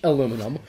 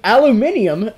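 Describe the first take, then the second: First: The word is pronounced the non-British way. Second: The word is pronounced the British way. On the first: "If you're not British" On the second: "The proper way to say aluminum. If you are British"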